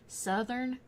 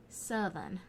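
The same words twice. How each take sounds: First: "southern" drawn out with the R sounded. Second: "southern" with the R dropped, "suth-un". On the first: Describing two kinds of accent to viewers, "southern" with its R. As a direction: say "southern" slowly, keeping the R in the second syllable. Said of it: "and then there's southern". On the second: Describing the other Alabama accent, "southern" said R-less. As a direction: drop the R in "southern", ending it on "un". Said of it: "with no R's". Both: Shown as a demonstration.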